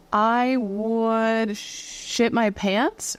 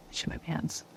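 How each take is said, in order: First: Drawn-out emphasis. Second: Hushed, sheepish aside; whispered confession. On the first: Woman imagining a doll choking her, drawn-out comic dread. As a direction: draw out "I would" for comic horror. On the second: Wife admitting an accident to poor husband, whispered. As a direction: drop right down to a whisper. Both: Pretend.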